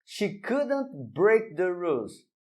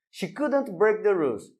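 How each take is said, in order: First: She couldn't break the rules said slowly, each word clear; careful slow English model sentence; slow model reading. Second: Said in the usual way. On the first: Shown as a demonstration. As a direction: read it slowly like a teacher setting an example. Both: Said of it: "Mais um exemplo".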